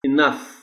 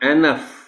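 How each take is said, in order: First: The stress is on the second syllable. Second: The stress is on the first syllable. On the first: The speaker calls it right. "पूरा stress N पर है।" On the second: The speaker calls it wrong. "they can pronounce the word as"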